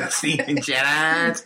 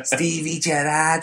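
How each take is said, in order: First: Laughing Scouse echo, slow; Liverpool accent. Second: Slow, higher Scouse Stevie Gerrard; Liverpool accent. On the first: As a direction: repeat it Scouse, giggling. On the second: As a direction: say it like a Scouser, drawn out. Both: Retold or imitated. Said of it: "Is that your Liverpool accent?".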